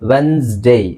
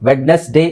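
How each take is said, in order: First: No d sound is heard after the first vowel. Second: A d sound is heard after the first vowel. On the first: The speaker calls it right. "ಡಿ silent ಆಗಿರುತ್ತೆ" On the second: The speaker calls it wrong. "ಅಲ್ಲ"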